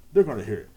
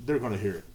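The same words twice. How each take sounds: First: "They're gonna hear it" repeated louder, with stress on "They're". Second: Said in the usual way. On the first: Shown as a demonstration. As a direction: hit "They're" harder the second time. Repeating warning about family gossip.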